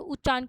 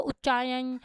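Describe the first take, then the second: First: Said in the usual way. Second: उच्चारण garbled as "uchchaayan"; deliberate mispronunciation. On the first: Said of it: "मेरा उच्चारण बिल्कुल ही गलत है". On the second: Shown as a demonstration. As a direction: say उच्चारण wrongly, with y replacing the r: "uchchaayan". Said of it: "ऐसे गलत फलत बोलूँगी".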